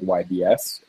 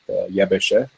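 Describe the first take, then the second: First: The name is said as separate letter names. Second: The name is said as one dialect word. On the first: "but I'll say YBS, it's easier" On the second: "or the local dialect, Yebeshe, way of pronouncing it"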